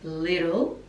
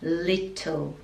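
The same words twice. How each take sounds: First: It is said in an American accent. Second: It is said in an Australian accent. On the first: "American pronunciation is little" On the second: "Australian pronunciation in children's song, we say little"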